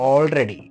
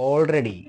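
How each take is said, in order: The two takes are said the same way.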